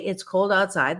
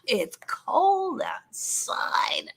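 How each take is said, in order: First: It is said in a plain, neutral tone. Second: It is said in a whiny, complaining tone. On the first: It is a simple statement of fact. The speaker calls it right. "that is not a complaint" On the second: The speaker is grumbling about it. The speaker calls it wrong. "that is a complaint"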